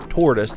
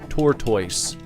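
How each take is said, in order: First: It is said in an American accent. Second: It is said in a British accent.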